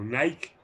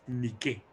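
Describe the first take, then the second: First: Nike is pronounced the English way. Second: Nike is pronounced the Greek way. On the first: "la anglización precisamente de la palabra" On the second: "lo voy a decir en griego"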